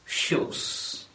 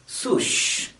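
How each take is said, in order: First: The word begins with an sh sound. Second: The word begins with an s sound. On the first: The speaker calls it right. "instead of shoes" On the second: The speaker calls it wrong. "or at least sush instead of shoes"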